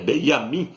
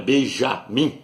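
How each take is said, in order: First: The name is said without a J sound. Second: The name is said with a J sound. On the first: The speaker calls it right. "é Benjamin Nataniel" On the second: The speaker calls it wrong. "porque no hebraico não tem a letra J, não é Benjamim"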